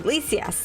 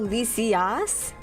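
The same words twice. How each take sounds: First: The A vowel is said weakly. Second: The A vowel is said strongly.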